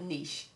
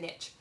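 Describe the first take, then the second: First: It is said the way people outside America say it. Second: It is said the way Texans say it.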